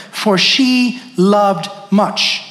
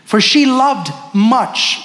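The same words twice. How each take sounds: First: For she loved much drawn out, she stressed; slow emphatic repeat. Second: For she loved much, each word slow and weighted on she; slow emphatic reading. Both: Shown as a demonstration. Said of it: "Underline that word".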